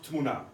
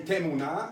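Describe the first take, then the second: First: The first vowel is dropped, starting with tm. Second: A short vowel is said after the first consonant. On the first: The speaker calls it wrong. "and not Tmuna" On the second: The speaker calls it right. "everybody should say Temuna"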